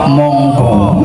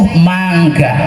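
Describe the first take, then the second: First: The vowels are rounded 'o' sounds, Javanese style. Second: The vowels are open 'a' sounds, Sundanese style. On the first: This is how a Javanese person says it. "orang Jawa monggo" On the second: This is how a Sundanese person says it. "Kalau orang Sunda itu mangga"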